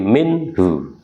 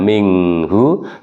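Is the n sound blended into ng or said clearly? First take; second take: clear; blended. First: The n is pronounced clearly and distinctly. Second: The n blends into a nasal ng sound. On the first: The speaker calls it right. "tapi minhu, itu dibaca jelas" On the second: The speaker calls it wrong. "Bukan minghu"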